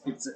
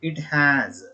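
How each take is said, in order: First: The words are contracted into one short syllable. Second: Both words are said fully and separately. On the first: "is pronounced, it's" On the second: "Till now we have uh, we have been pronouncing like that"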